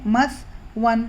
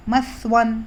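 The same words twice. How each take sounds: First: مثون said slowly, the jazm on ث clearly stopped; slow sakin tha. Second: Said in the usual way. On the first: Shown as a demonstration. Teacher slows down مثون to show the jazm, careful. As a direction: spell out مثون slowly, resting on the silent ث. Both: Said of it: "جزم ہے".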